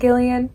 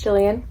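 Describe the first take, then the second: First: The name begins with a hard G sound. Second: The name begins with a soft J sound. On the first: The speaker calls it wrong. "not Gillian" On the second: The speaker calls it right. "with a G, but pronounced like it is with a J"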